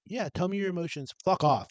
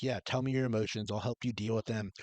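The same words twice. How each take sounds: First: High, fake-caring, then dismissive; mock supportive. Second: Softly offered, understanding reply; supportive parent. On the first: Parent faking interest in a child's emotions, dismissive. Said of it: "Or to, like, just be like". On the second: Acted. Parent offering help with a child's emotions, supportive. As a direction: invite them to open up, easing softer. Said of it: "to either, like, be like".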